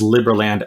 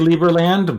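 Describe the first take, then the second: First: The first syllable sounds like in liberty. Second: The first syllable does not sound like liberty. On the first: "says Liberland as in liberty" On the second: "I used to say Liberland"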